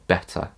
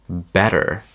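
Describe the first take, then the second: First: The ending is a short uh sound, no R. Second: The final R is pronounced heavily. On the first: "but actually in British English it's uh. So better" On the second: "Americans, you guys pronounce the word better as better, better. So the R is really heavily pronounced"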